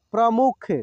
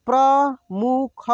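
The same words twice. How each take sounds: First: Said in the usual way. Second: प्रमुख drawn out slowly, syllable by syllable; slow sounding out. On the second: Shown as a demonstration. Teacher slowly sounds out प्रमुख for students. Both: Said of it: "एक एक मात्रा को अलग अलग करके".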